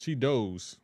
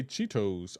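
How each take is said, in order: First: Cheetos said as CHEE-doze. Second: Crisp T in Cheetos, CHEE-toes. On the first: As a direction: soften the T in Cheetos to a D. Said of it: "I pronounce it". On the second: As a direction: say "Cheetos" with a true T sound. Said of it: "See, you say Cheetos". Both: Shown as a demonstration.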